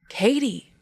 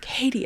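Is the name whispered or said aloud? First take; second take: aloud; whispered. First: The name is said louder, aloud. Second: The name is whispered.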